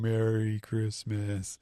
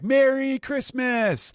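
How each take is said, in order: First: It is said in a sad, depressed tone. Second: It is said in a cheerful, festive tone.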